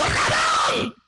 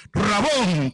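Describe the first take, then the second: First: High, frightened yelp of recognition; acted shriek of surprise; startled cry. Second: Said in the usual way. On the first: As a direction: shout it out as if suddenly startled. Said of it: "Se asustó la señora y dijo". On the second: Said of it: "Volviéndose ella le dijo".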